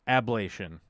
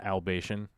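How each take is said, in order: First: The L sound comes after the B. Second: The L sound comes before the B. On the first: The speaker calls it right. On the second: The speaker calls it wrong. "Not albation"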